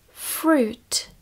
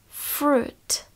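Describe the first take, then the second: No difference in how they are said.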